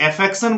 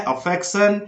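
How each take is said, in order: First: अफेक्शन with a long e at the start; wrong pronunciation. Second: अफेक्शन with a short uh at the start; correct pronunciation. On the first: Teacher mimics a common student mistake, eh-fection. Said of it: "कुछ लोग अफेक्शन बोलते हैं जो गलत है". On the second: Teacher shows students the right way, uh-fection. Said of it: "यहाँ आपको बोलना है". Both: Shown as a demonstration.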